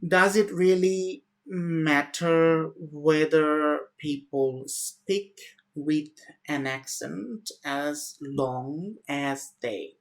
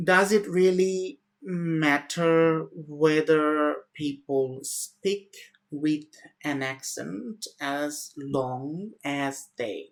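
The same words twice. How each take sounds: First: It is broken into many short hesitant chunks. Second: It is broken into many short hesitant chunks.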